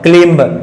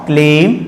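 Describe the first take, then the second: First: A b sound is heard at the end. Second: No b sound is heard at the end. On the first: The speaker calls it wrong. "That is wrong" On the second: The speaker calls it right. "आपको pronounce करना है"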